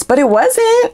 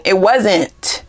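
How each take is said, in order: First: A sharp rising insistence on "wasn't"; emphatic denial. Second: Said in the usual way. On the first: Shown as a demonstration. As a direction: insist on "wasn't", hitting it high.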